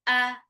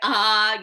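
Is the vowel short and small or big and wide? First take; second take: small; big. First: The vowel is small and modest. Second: The vowel is big and wide open. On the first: The speaker calls it right. "cuma a, kecil aja, secukupnya" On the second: The speaker calls it wrong. "jangan sampai a gitu"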